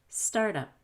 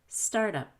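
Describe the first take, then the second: Both takes have the same delivery.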